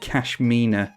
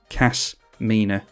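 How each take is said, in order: First: The name has an 'sh' sound, like cashmere. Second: The name has a plain 's' sound. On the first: The speaker calls it wrong. "I always want to say Kashmina, as in cashmere" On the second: The speaker calls it right. "but Kasmina, not Kashmina"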